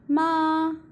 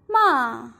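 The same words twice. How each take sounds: First: The pitch stays high and level. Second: The pitch falls sharply from high to low. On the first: It means mother. "ma in the first tone" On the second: It means to curse somebody. "ma in the fourth tone"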